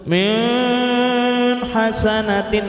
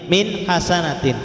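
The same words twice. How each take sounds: First: The n sound is nasalized through the nose. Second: The n sound is clear and distinct. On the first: The speaker calls it wrong. "sengau-sengau ya, ... dimasukkan ke hidung" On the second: The speaker calls it right. "Harus suara nunnya jelas, n-nya jelas, tekanan jelas"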